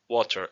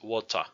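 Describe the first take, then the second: First: The word ends with an R sound. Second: The word ends with an open 'ah' vowel. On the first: This is not the Jamaican way. "it's not water" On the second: This is the Jamaican way. "it's water, ended with an Spanish A"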